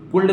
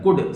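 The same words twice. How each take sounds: First: कुल्ड with an L before the D; L wrongly sounded. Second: कुड with no L before the D; silent L. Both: Shown as a demonstration. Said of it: "कुल्ड नहीं बोला जाता है".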